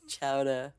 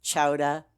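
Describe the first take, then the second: First: Said in the usual way. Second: Chowder in a Massachusetts accent, punched louder with an r-less ending. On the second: Shown as a demonstration. Streamer showing how Massachusetts people say it, Boston accent. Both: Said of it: "people from Massachusetts will say".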